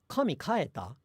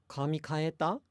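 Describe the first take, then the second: First: Kaeta is accented on its first beat. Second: Kaeta is said with a flat pitch. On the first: Did God go home? The speaker calls it wrong. "completely wrong in terms of pitch accent" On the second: Did you change your hair? The speaker calls it right. "you might say"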